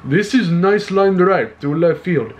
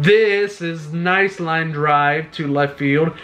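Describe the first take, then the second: First: Playful Russian accent imitation. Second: Slow, drawn-out line with a faint Russian accent; hint of a Russian accent; accidental Russian accent. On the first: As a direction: repeat the call in a hammed-up Russian accent. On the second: Real, not acted. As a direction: slip into a Russian accent without meaning to. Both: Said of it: "That sounded like a Russian accent".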